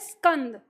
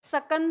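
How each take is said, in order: First: The s joins the k with no vowel. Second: A full vowel follows the first s sound. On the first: The speaker calls it right. "आधे सा का उच्चारण करते हैं" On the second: The speaker calls it wrong. "सकंद नहीं कह सकते"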